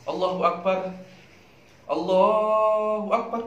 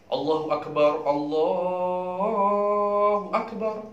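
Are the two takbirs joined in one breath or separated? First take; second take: separated; joined. First: A breath break separates the two phrases. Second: Both phrases are joined in one breath. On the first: This is allowed but not the recommended practice. The speaker calls it wrong. "bukan ... Boleh, boleh, boleh. Akan tetapi tak tak sunnah" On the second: This follows the recommended practice. The speaker calls it right. "Wajam ukul li takbirataini binafasin. Ada sunnah"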